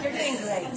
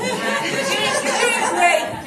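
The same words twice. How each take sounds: First: Said in the usual way. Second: Loud, cheering words of support; loud encouragement. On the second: Real, not acted. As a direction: cheer her on loudly. Cheering on a nervous speaker.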